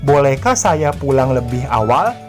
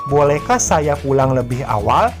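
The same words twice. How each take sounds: Both takes have the same delivery.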